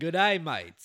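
It is said in an Australian accent.

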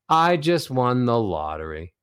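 The pitch drops from high to low. The speaker sounds let down. "Descending melodies, the ones that go from high to low"

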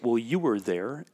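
The line is said with strong emphasis. "and there's emphasis on it"

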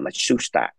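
The name is said with three syllables. This is how the Japanese say it. "Nhật nó gọi là Matsushita, có ba thôi"

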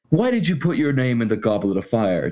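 It is asked calmly, in Dumbledore's voice.

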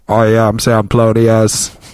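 It is said in a robotic voice.

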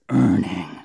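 The word is said in a deep, guttural voice. The speaker calls it right. "it's earning. It's a real guttural desire"

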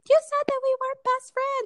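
It is said in a sweet, princess-like voice. The speaker calls it right. "She said it in like a Disney princess voice"

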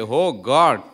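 It sounds distressed, as in a crisis.

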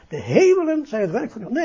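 The emphasis falls on the word hemelen. The speaker calls it wrong. "want meestal leest het zo voort"

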